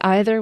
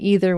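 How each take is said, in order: First: It uses the speaker's formal pronunciation of the word. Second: It uses the speaker's casual pronunciation of the word. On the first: The speaker is feeling more formal. "when I'm feeling more formal" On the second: The speaker is being more casual. "when I'm being more casual"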